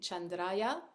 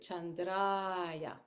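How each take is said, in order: First: The marked 'a' vowel is short. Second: The marked 'a' vowel is held long. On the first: The speaker calls it wrong. "instead of saying Chandraya" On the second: The speaker calls it right. "make the ah longer ... it has two beats"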